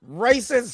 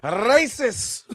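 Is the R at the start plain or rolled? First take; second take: plain; rolled. First: The first R is a plain English R. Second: The first R is rolled, Spanish style. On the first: "with the capital R" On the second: "if you're Spanish, you wrote R"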